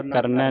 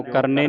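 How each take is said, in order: First: ਕਰਨਾ said "karnai", double vowel mark on n; open final vowel. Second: ਕਰਨੇ ending in a close e; wrong final vowel. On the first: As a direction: open the ending of ਕਰਨਾ to "nai". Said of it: "ਨੰਨੇ ਦਲਾਵਾਂ ਲੱਗੇ". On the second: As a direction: say ਕਰਨੇ as "karne". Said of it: "ਕਰਨੇ ਨਹੀਂ ਪੜ੍ਹਨਾ". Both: Shown as a demonstration.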